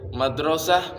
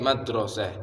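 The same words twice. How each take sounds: First: The vowels sound like a clear a. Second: The vowels are shifted toward an e sound.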